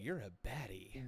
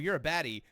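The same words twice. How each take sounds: First: It is said with flirtatious admiration. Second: It is said with dismissive disgust. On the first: The person is found attractive. "ooh, you're a baddie" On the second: The person is condemned as bad. "oh, you're a baddie. Fuck you. Fuck. Get out of here"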